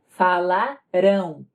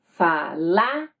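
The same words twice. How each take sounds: First: The stress is on the last syllable. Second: The stress is on the second-to-last syllable. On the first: The action will happen later. "no futuro a tônica vai estar na última sílaba" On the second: The action already happened. "Note a tônica"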